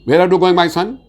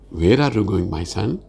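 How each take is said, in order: First: The voice is flat, with little pitch movement. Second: The voice rises and falls like waves.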